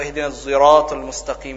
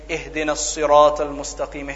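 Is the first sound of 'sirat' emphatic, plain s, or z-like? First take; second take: z-like; emphatic. First: Sirat begins with a sound blended toward z. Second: Sirat begins with an emphatic, heavy s sound.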